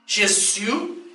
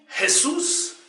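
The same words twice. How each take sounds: First: The name is pronounced the French way. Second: The name is pronounced the Spanish way. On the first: "Os franceses dizem" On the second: "Os hispânicos dizem"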